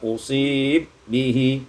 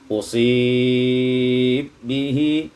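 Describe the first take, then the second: First: The long vowel is held only briefly. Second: The long vowel is held a medium time.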